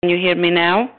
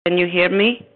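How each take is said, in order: First: Distant voice on a crackling line; calling through a cutting-out phone; fading in through static. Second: Faint, crackly phone line; fading in through static. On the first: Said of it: "we lost you". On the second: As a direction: voice breaking up on a bad connection. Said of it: "Yes, I can hear you now". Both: Real, not acted.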